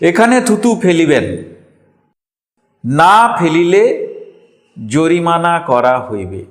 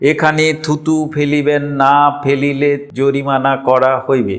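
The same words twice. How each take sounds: First: There is a pause after the word না. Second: It runs on with no pause anywhere. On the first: The speaker calls it right. "না এর পরে থামতে হতো।" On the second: The speaker calls it wrong. "কোথাও কমা দাড়ি পূর্ণচ্ছেদ দেওয়া নেই"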